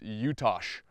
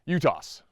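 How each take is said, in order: First: The name ends with a sh sound. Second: The name ends with an s sound. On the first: The speaker calls it right. "I'm pretty sure it's Utash with a sh at the end of it" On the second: The speaker calls it wrong. "I say Utas. ... I'm most likely saying it wrong"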